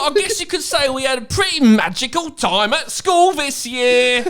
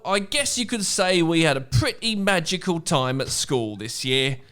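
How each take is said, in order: First: It is said in a put-on idiot voice. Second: It is read in a normal voice.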